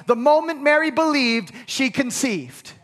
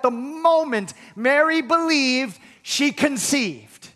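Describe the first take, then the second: First: Said in the usual way. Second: Slower, weighing each word of "The moment Mary believed, she conceived"; slow emphatic repeat. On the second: Shown as a demonstration. Pastor to congregation, stressing the point, slow and emphatic. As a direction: lean hard on "Mary" and "she", drawn out. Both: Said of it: "I cannot emphasize the importance of that".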